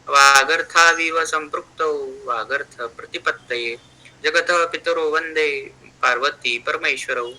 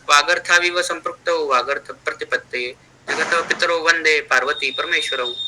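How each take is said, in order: First: It is recited slowly. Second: It is recited fast.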